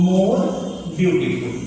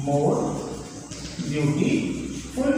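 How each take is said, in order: First: Said in the usual way. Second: More beautiful drawn out very slowly, softer; slow dictation. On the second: Shown as a demonstration. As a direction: stretch out "more beautiful" as if dictating for students to copy. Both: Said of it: "तो हम क्या लिखेंगे यहाँ पर".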